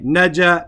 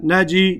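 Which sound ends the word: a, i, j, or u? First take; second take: a; i. First: The word ends with an added a vowel. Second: The word ends with an added i vowel. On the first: The letter carries a fatha. "I don't say naja" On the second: The letter carries a kasra. "I don't say"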